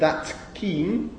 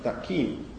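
First: The final consonant of 'that' stays distinct. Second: The final consonant of 'that' takes the next sound's place. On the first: "is not that keen" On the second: "place of articulation assimilation"

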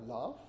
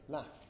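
First: The vowel is long and drawn out. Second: The vowel is short and higher. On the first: "with a long R" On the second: "if you are a northerner, then you would say laugh, shorter and higher"

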